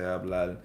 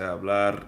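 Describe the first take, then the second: First: The word ends with an L sound. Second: The word ends with an R sound. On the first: This is how people in Puerto Rico say it. "in Puerto Rico they changed the R into a L" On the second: This is the standard form people elsewhere use. "they don't say hablar"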